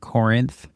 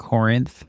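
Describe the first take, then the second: First: The second syllable sounds like 'rinth'. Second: The second syllable sounds like 'rinth'.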